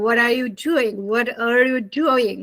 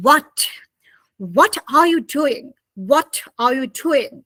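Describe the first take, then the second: First: American linked what-are, flapped t; American pronunciation of what are you doing; American accent. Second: British what with a crisp, separate t; careful British pronunciation of what are you doing; British accent. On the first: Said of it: "When you are speaking to Americans". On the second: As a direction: release the t in what, British style. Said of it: "But British people say". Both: Shown as a demonstration.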